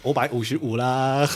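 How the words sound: It is said in a Minnan accent, wu as o.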